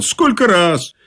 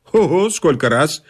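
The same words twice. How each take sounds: First: Higher-pitched, perky "Сколько раз"; chipper reply. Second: Lightly cocky boast; breezy swagger. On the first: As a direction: answer "Сколько раз" with brisk confidence. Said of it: "что я бодро отвечал". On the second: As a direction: toss "сколько раз" off with casual bravado. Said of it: "дёрнул меня развязно сказать". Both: A narrator's reading.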